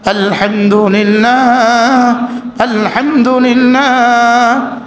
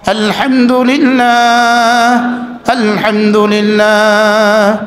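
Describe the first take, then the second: The two takes are said the same way.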